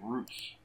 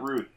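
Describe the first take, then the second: First: The name ends with a 'ts' sound. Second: The name ends with a 'th' sound. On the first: The speaker calls it right. "he's Roots" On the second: The speaker calls it wrong. "it's not Ruth"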